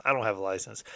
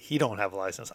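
First: I stressed, answering He. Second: He stressed, then I. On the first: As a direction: lean on the word I, rising a little at the end. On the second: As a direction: lean on the word He, not on license. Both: Real, not acted. Contrasting roommate and himself.

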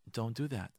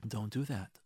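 No difference in how they are said.

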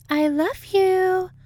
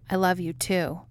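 First: Very high, slow, louder put-on voice; hammed-up lovey voice. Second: Said in the usual way. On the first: A narrator's reading. Dana to Mulder with a kiss, gushing. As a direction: coo it loudly, stretching each word. Dana's put-on declaration of love.

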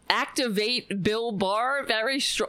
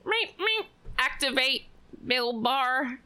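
First: Slightly raised mock echo of the phrase; mocking repeat. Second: High robotic beeps, then a raised machine voice; mock fembot. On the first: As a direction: repeat it back in disbelief. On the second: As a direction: mimic a robot powering up. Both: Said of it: "what is he, a fucking fembot".

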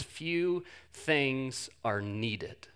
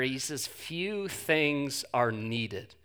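First: "few" drawn out and soft, slow "Few things are needed"; stressing few. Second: Slow, soft "few things are needed" with "few" stretched; stressing few. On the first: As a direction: linger on the word "few", very slow and quiet. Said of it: "notice Jesus' choice of words here". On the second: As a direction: dwell on "few" quietly. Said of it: "He doesn't say few things are important". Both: Shown as a demonstration.

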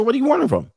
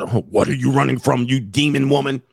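First: High, light, playful question; teasing lilt, much higher pitch; joking. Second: Hammed-up interrogator's accusation; heavy, suspicious grilling, played for laughs; mock accusing. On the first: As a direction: ask it as a breezy joke. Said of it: "just say it as a joke". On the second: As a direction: accuse her like a mock exorcist. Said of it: "Don't say it like you're". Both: Shown as a demonstration.

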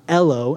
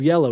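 First: "ello" with no Y at the start; child's slip "ello", first consonant left off; dropped Y. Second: Said in the usual way. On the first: Retold or imitated. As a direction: say "ello", starting straight on the vowel. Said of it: "one of the words that he would mess up". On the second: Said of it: "He would drop the Y".

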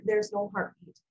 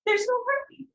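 First: Low, subdued imitation of a doctor breaking news; retold doctor's sympathy, pitched low; feigned sincerity. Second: High-pitched, distressed retelling of a tearful call; upset, high re-enacted plea; retold crying. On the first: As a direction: deliver it low and even, like a practised doctor. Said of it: "he's trying to feign sincerity". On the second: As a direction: push it up high, as if crying to a husband. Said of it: "I just cry, and I say".

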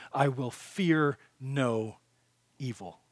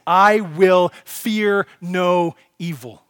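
First: Slow and hushed, dropping away to almost nothing on evil; soft fading declaration. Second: Louder and slowed right down, every word weighted; emphatic declaration. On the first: Preacher quietly sealing the point to listeners, slow and fading. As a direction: let the line sink into a hush. Softly restating the verse. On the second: Preacher proclaiming the psalm line to the congregation, loud and very slow. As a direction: proclaim each word like a banner. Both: Acted.

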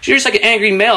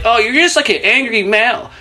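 First: Mock friend repeated. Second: Mock friend. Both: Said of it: "her friend is there like".

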